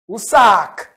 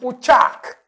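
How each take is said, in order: First: The middle consonant is an 's' sound. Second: The middle consonant is a 'ch' sound. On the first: This is how other dialects say it. "au lieu de tch, ils vont dire s" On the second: This is how one group of dialects says it. "tous les villages qui sont dans chaque, hein, alignés dans chaque dialecte, disent Uchak"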